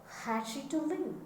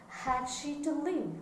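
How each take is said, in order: The two takes are said the same way.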